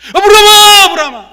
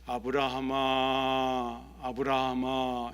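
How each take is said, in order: First: It is called out in a startled, hurried way. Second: It is called out calmly and slowly.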